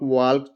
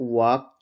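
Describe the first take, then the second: First: The L sound is pronounced. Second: The L sound is left out. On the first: The speaker calls it wrong. "नहीं पढ़ेंगे" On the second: The speaker calls it right. "इसका pronunciation है"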